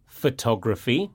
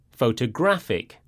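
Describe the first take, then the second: First: Photography stressed pho-TOG-ra-phy, rising. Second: Photographic stressed pho-to-GRAPH-ic, falling. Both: Shown as a demonstration. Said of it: "the stress falls on the penultimate syllable".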